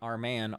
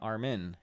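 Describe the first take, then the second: First: The second syllable sounds like 'man'. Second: The second syllable sounds like 'min'. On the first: The speaker calls it wrong. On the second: The speaker calls it right.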